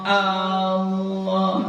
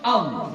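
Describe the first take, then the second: First: The first vowel is drawn out long. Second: The first vowel is short, going straight on. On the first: The speaker calls it wrong. "jangan dipanjangkan, jangan Allah Allah. Nah, itu udah panjang itu" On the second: The speaker calls it right. "harus Allah langsung A A langsung ke lam"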